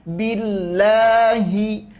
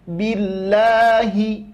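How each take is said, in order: First: The word is articulated clearly and distinctly. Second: The word is articulated clearly and distinctly.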